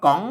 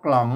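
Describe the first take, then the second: First: The word begins with a plain k sound. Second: The word begins with a kl cluster. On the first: The speaker calls it right. "อันนี้อ่านว่าก๋อง" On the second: The speaker calls it wrong. "บ่ใช่อ่านว่ากล่อง"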